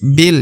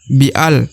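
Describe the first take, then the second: First: The alif is silent, bi joins the lam. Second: The alif is sounded as a separate syllable. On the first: The speaker calls it right. "tapi bil ya, langsung masuk ke huruf lam" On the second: The speaker calls it wrong. "Maka tidak dibaca bi'al"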